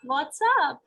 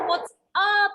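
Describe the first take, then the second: First: The pitch rises, then falls on the final word. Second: The pitch goes up on the final word. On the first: The speaker calls it right. "there's a rise and a fall" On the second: The speaker calls it wrong. "थोड़ा सा sound जो था वो what's up ऐसा up चला गया"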